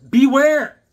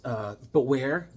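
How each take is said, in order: First: "Beware!" shouted high and loud; spooky title shout. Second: Said in the usual way. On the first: Shown as a demonstration. Reading the comic title aloud as a big spooky shout. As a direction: boom out "Beware!" like a horror host.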